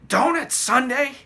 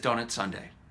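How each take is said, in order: First: It is said loudly with excited energy. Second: It is said casually in a flat monotone. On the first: The child is thrilled by the news. "in a very loud voice" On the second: It is a routine announcement. "kind of in a casual voice. With that monotone voice"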